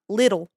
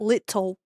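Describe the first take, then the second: First: The middle consonant sounds like a soft D. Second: The middle consonant is a crisp T. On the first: The speaker calls it right. "every T is a D" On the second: The speaker calls it wrong.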